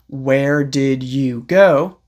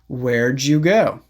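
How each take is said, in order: First: The word did is said in full. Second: The word did is contracted onto where. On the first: "So instead of saying" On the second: "You can say"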